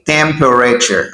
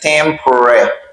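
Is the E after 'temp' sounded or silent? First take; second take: sounded; silent. First: The E after 'temp' is pronounced as a syllable. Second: The E after 'temp' is silent and dropped. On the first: The speaker calls it wrong. "I don't say temperature" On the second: The speaker calls it right. "the E is silent. I say temperature"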